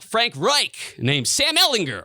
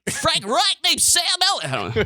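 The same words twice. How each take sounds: First: It is said in an ordinary conversational voice. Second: It is said in a put-on sports-radio announcer voice.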